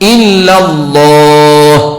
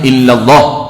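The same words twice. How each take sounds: First: The vowel of 'Allah' is held for two counts. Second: The vowel of 'Allah' is cut off abruptly. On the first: The speaker calls it right. "wajib dua" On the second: The speaker calls it wrong. "tak boleh illallah, tak boleh, mengejut tak boleh"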